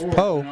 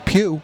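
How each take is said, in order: First: The name ends in an 'oh' vowel. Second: The name ends in an 'oo' vowel. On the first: The speaker calls it wrong. "And I mispronounced that" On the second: The speaker calls it right. "It's Pugh"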